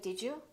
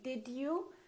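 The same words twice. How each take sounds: First: The d and y blend into a j sound. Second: The d and y sounds stay separate. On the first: The speaker calls it right. "most Americans will say" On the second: The speaker calls it wrong. "We don't say"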